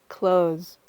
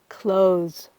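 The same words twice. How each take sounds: The two takes are said the same way.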